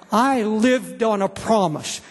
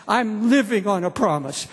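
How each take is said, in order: First: Slow, leaning on I in "I lived on a promise"; stress on I. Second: "living" pressed hard in "I'm living on a promise"; stress on living. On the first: Preacher testifying to the congregation, slow stress on I. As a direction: look back on past faith with the weight on I. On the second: Preacher testifying to the congregation, stress on living. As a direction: insist on the present with the weight on living. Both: Shown as a demonstration.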